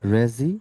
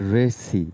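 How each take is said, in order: First: The middle consonant is a buzzing z. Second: The middle consonant is a hissing s. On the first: The speaker calls it right. "রেজি, not রেসি" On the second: The speaker calls it wrong. "নট রেসি"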